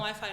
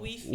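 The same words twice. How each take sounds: First: Wi-Fi is said with English pronunciation. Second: Wi-Fi is said with Spanish pronunciation. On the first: "eles não falam" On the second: "eles falam"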